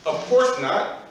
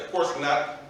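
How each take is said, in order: First: OF COURSE NOT pitched high with emphasis; emphatic exclamation. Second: Said in the usual way. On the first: Shown as a demonstration. Teacher stressing what the Arabic word really means, emphatic. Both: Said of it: "exclamation point".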